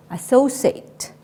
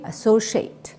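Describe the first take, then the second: First: "associate" said with a plain s, "a-so-sate"; associate with an S sound. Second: "associate" said with sh, "a-so-shate"; associate with SH sound. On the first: Teacher modelling vocabulary for students to repeat, "associate" with an S sound. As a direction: say "associate" with a crisp S in the middle, not SH. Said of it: "say associate". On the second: Teacher showing students the other pronunciation, "associate" with an SH sound. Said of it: "Also you can sh-, say". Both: Shown as a demonstration.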